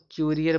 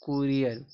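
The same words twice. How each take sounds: First: क्यूरियर with "kyu" at the start; y-glide reading. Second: कुरियर with "ku" at the start, no y-glide; plain-u reading. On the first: Teacher trying a reading of courier, क्यूरियर with kyu. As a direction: say क्यूरियर with a y after the k. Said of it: "इसको तो क्यूरियर पढ़ेंगे". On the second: Teacher settling the reading of courier, कुरियर without glide. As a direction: model कुरियर with k straight into u. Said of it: "क्या पढ़ेंगे?". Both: Shown as a demonstration.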